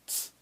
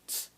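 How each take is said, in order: Both takes have the same delivery.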